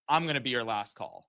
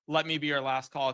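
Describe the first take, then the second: First: It sounds firm and confident. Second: It sounds pleading and begging.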